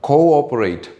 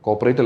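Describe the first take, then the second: First: There is a short break after co. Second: It runs together without a break. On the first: The speaker calls it right. "ഇവിടെ കഴിഞ്ഞിട്ടൊരു ഒരു stop ഉണ്ട്" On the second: The speaker calls it wrong. "ഇത് cooperate അല്ല"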